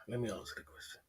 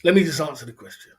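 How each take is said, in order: First: Low, quiet mutter under breath; muttered to self. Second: Said in the usual way. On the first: Real, not acted. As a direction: say it quietly to yourself. Repeated to himself muttering.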